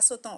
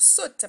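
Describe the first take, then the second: First: The word ends with a nasal vowel. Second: The word ends without a nasal vowel. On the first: The speaker calls it wrong. "pas sautant" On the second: The speaker calls it right. "On va dire saute"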